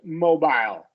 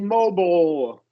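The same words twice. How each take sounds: First: British accent, ending like "aisle". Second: American accent, ending is a weak dark L.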